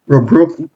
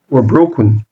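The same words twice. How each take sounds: First: "were broken" asked upward, left hanging; "were broken" with a questioning rise; rising were broken. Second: "were broken" settled with a final fall; "were broken" landed low and conclusive. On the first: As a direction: lift the pitch on the end of "were broken". Repeated phrase, first take. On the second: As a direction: drop the pitch down through "were broken". Repeated phrase, second take. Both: Shown as a demonstration.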